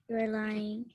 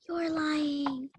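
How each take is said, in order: First: It is said quietly, not breathy, under the breath. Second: It is said in a breathy voice.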